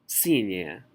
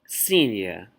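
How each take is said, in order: The two takes are said the same way.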